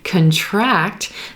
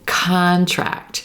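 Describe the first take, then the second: First: The stress is on the second syllable. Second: The stress is on the first syllable. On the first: It means to become smaller. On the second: It names an agreement you sign. "If we stress the first syllable"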